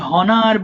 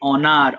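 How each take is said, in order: First: The word starts with an h sound. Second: The word starts with a vowel sound. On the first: The speaker calls it wrong. "এটা অনেকেই হনার বলে ফেলতে পারো" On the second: The speaker calls it right. "But এটা হবে অনার"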